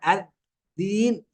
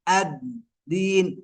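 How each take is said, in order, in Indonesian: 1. d dibuat dengan lidah di antara gigi. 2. d dibuat tepat di belakang gigi atas. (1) "لا نضع اللسان بين الأسنان" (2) "طرف اللسان مع أصول الثنايا العليا، هذا هو المخرج الصحيح"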